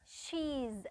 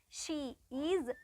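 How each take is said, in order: First: It is said as one short contracted word. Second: It is said as two separate full words.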